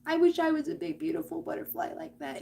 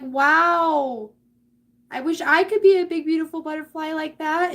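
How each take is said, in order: First: Acted small, wistful longing; wistful self-doubter. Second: Loud, high, gushing wow; hammed-up awe, pitched way up; admiring onlookers. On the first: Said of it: "And you're sitting there like". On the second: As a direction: gush with envious admiration, acted big. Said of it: "everybody looks at you and is like".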